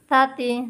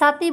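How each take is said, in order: First: The first consonant is soft, without hissing. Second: The first consonant is a hissing s sound. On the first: The speaker calls it right. "জিব্বার আগা থেকে নরম পাবে, নরম হবে, শীষ হবে না কিন্তু" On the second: The speaker calls it wrong. "সাতি বলা যাবে না"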